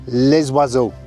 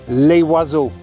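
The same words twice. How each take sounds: First: The S of les is sounded, linking. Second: The S of les is not sounded. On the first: The speaker calls it right. "So it should have been les oiseaux" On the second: The speaker calls it wrong. "so I said les oiseaux"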